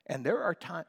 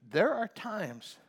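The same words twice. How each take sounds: First: Said in the usual way. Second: "there are times" drawn out slowly, each word leaned on; slow down and press "there are times"; preacher slowing to stress "there are times"; slow emphatic repeat. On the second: Shown as a demonstration. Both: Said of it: "listen to me".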